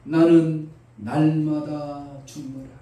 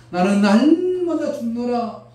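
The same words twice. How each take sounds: First: Paul declaring. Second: Higher, louder, slow, stress 날마다; Paul proclaiming. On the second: Paul proclaiming he dies daily, loud on 날마다. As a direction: proclaim 날마다 with rising force. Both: Retold or imitated. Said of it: "바울이 말합니다".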